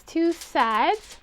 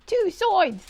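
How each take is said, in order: First: Said in the usual way. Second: SIDES said like "soids", pitched high; silly high echo with "soids" for SIDES; goofy vowel on SIDES, as "soids"; playful mispronunciation. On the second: Acted. Playful funny-voiced repeat for emphasis.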